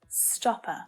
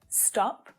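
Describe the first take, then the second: First: An extra vowel is added after the final consonant. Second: The word ends cleanly on its final consonant. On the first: The speaker calls it wrong. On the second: The speaker calls it right.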